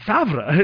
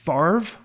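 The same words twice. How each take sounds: First: The R sound comes after the V sound. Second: The R sound comes before the V sound. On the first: "the R and the V come in the opposite order" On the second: "You guys pronounce it Favre"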